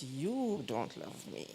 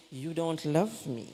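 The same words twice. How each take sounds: First: Slow, softer, plaintive little voice; whiny child's guilt trip. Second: Slow, pointed quote at normal level; quoting a child who says it to wound; child's guilt trip. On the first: A child pleading with mother, quietly hurt and plaintive. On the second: A child telling mother she's unloved, mildly pointed. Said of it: "mother when they say". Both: Retold or imitated.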